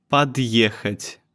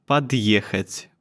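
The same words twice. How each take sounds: The two takes are said the same way.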